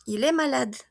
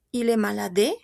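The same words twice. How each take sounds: First: "malade" ending on the d sound, e silent; silent final E. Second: Questioning "malade" with an extra "é" syllable at the end; wrong final E sounded. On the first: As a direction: say "malade" as "ma-LAD", no final vowel. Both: Shown as a demonstration. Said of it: "yo no pronuncio mi E".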